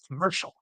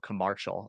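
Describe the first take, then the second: First: The middle vowel sounds like an E. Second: The middle vowel sounds like an A. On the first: "She's like" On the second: "I pronounce it like as though as an A instead of an E"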